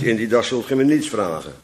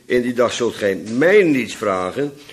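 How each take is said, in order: First: The stress falls on the word niets. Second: The stress falls on the word mij. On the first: The speaker calls it wrong. "niet op niets. Dus niet" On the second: The speaker calls it right. "want de klemtoon ligt op mij"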